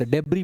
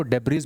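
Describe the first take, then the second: First: डेब्री with a silent final S; standard pronunciation. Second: डेब्रीज with the final S voiced as Z; alternative pronunciation. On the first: Teacher showing how debris is read, डेब्री with silent S. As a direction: end डेब्री on an open "ee". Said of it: "डेब्री पढ़ा जाता है इसको". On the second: Teacher showing how some read debris, डेब्रीज with a Z ending. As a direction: sound the last consonant in डेब्रीज. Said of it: "कुछ लोग इसको डेब्रीज भी पढ़ते हैं". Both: Shown as a demonstration.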